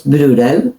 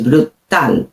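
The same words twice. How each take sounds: First: "brutal" anglicised, T softened almost to a D; English-style mispronunciation. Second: "brutal" slowly, with a crisp T on stressed -tal; "brutal" as bru-TAL, last syllable drawn out; sounded Spanish T. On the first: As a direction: stress the first syllable of "brutal", BROO-dl. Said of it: "No es brutal". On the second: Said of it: "La T suena". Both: Shown as a demonstration.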